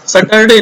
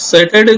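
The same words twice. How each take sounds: First: सैटरडे said wrongly as sutt-er-day; mispronunciation. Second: सैटरडे with open sa as in sat; correct first vowel. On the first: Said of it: "नहीं बोलना है". (सैटरडे का गलत उच्चारण, 'सटरडे') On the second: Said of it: "सैटरडे नहीं बोलना है". (सैटरडे में 'सै' की आवाज़) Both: Shown as a demonstration.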